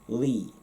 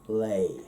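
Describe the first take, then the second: First: The vowel is a long 'ee' sound. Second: The vowel is an 'ay' sound. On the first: "pronounced like a long I, an I fada" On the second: "in Munster, that becomes more of a lay"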